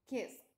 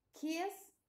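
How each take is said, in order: First: "kiss" as past tense, kist; final T sound. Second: Said in the usual way. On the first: Shown as a demonstration. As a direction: close "kiss" on a T after the S. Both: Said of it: "pronunciamos la T".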